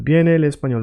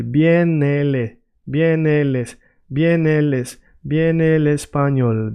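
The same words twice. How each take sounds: First: Said in the usual way. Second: Slow, repeated practice chunks; careful drill of the tricky part; going slowly. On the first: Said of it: "work like that by yourself". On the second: Shown as a demonstration. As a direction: link the words slowly, piece by piece. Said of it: "I want you to go slowly".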